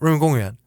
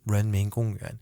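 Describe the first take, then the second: First: The phrase is said quickly and smoothly together. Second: The phrase is said slowly, syllable by syllable. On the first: The speaker is a local. "if I'm like a local" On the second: The speaker is a beginner in the language. "I'm just starting to learn Chinese"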